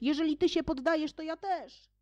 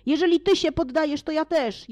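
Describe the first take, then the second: First: Higher, softer, fast repeat; fading echo. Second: High, eager call; eager shout. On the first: Another companion echoing, softer and fading away. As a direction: let it trail off like a distant voice. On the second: The companions shouting over each other, high and eager. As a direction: jump in after the others, eagerly. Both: Acted. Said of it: "wołając jeden przez drugiego".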